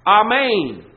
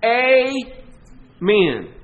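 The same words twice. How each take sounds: First: "Amen" opened with AH, ah-MAYN, loud; "Amen" the Greek way, ah-MAYN; Greek pronunciation. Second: Loud Southern "Amen", a long punched AY, a pause, then MEN; emphatic Southern "Amen" split into two beats; Southern emphasis. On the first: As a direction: say "Amen" with a broad AH first and a long second syllable. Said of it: "in the Greek, it transliterates". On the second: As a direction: draw out a Southern AY-men, hard on the first syllable. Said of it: "special emphasis down here in the South". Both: Shown as a demonstration.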